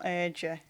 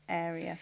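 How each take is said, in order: First: The name sounds like 'urgia'. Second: The name sounds like 'area'. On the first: The speaker calls it wrong. "not Urgia" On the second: The speaker calls it right. "That's how you pronounce it"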